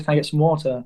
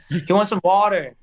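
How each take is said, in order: First: Quick British "water" with the r dropped; British-accented granddad. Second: Louder American "water" with a clear r; American-accented translation. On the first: British granddad repeating his order to baffled servers, British accent. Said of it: "it catches people off guard". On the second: Grandchild translating granddad's order for the server, emphatic American accent. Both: Retold or imitated.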